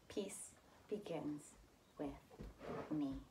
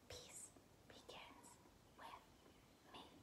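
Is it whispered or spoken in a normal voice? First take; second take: normal voice; whispered. First: It is spoken in a normal voice. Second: It is whispered without full voice.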